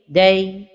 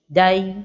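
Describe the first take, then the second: First: The vowel is neither darkened nor thinned. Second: The vowel is made heavy and dark. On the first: The speaker calls it right. "la prononciation correcte est" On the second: The speaker calls it wrong. "d'emphatiser la voyelle de la lettre del comme ceci"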